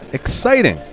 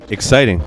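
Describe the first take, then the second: First: The word is said with lively excitement. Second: The word is said flatly, without excitement. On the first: The speaker calls it right. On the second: The speaker calls it wrong.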